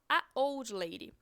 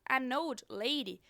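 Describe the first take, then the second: First: No n sound comes between article and old. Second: An n sound links the article to old. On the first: The speaker calls it wrong. "do que se a gente chegar e falar a old lady" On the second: The speaker calls it right. "você vê que é muito mais fluido"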